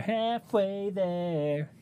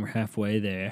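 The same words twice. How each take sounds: First: High, drawn-out sung line; sung, belt it out slowly, way up high. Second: Said in the usual way. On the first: Pretend. Podcaster breaking into song at the halfway mark, singing high.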